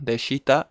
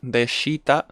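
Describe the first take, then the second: First: The vowel after sh is clearly pronounced. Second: The same.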